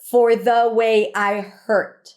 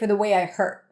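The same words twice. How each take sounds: First: Every single word carries emphasis. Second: Only some words carry stress, as in speech. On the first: "she puts the emphasis on the to almost like emphasize every single word here" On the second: "usually if I were to speak it, I would say"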